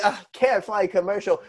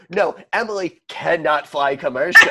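First: Said in the usual way. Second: CANNOT hit hard and louder; emphatic correction. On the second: Shown as a demonstration. Host correcting the snooty reading of Emily, CANNOT stressed emphatically. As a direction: spell out CANNOT with firm, laughing weight. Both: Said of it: "it's not that Emily".

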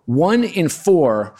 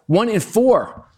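First: Said in the usual way. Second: "One in four" spoken slowly and higher, each word weighed; "four" drawn out and falling; stressed slowly. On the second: Acted.

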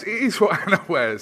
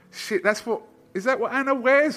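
First: "is" punched high and loud; loud, high confirmation with "is" emphasized; stress on IS. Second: High, loud mock disbelief; raised-pitch incredulous questioning; retold surprised thought. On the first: Retold or imitated. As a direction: answer your own question, leaning hard on "is". Answers his own retold question. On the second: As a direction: replay your startled double-take as a question. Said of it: "in my head, I was thinking".

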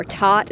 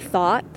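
First: "taught" with a hard T in place of TH; taught for thought. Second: Said in the usual way. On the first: Shown as a demonstration. Showing what got corrected at school, "taught" with T for TH. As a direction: say "taught", TH turned into T. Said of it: "if you said things like". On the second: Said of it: "instead of".

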